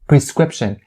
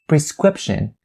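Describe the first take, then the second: No difference in how they are said.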